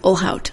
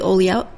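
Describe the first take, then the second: First: The 'lh' is said as 'l' then 'h'. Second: The 'lh' is said like a 'ly' sound. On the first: The speaker calls it right. "It's Ohlhaut" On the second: The speaker calls it wrong. "Nope, see, I did it"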